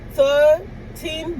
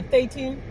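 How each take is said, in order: First: Put-on THIRTEEN pitched high, THIR and TEEN pulled apart; over-articulate THIRTEEN in two loud pieces; careful thirteen. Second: Said in the usual way. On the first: Ordering at the drive-through, over-careful THIRTEEN. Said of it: "But when I say". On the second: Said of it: "they always thought I'm saying number eighteen".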